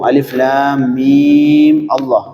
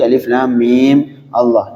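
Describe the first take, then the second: First: Mim runs straight into Allah without a break. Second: There is a stop after mim before Allah. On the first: "apabila disambung" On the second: "kalau berhenti"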